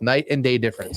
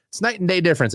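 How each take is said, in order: First: Said in the usual way. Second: "night" hit high and hard, higher pitch on "night and day difference"; emphatic, higher. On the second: Shown as a demonstration. Correcting fans about Watson, emphatic stress on "night". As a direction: punch "night" as if disbelieving.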